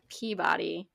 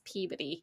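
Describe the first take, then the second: First: It is said with a non-local pronunciation. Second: It is said with the local Massachusetts pronunciation. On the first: "like the Peabody Museum" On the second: "up here, it's Peabody"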